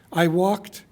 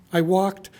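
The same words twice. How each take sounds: The two takes are said the same way.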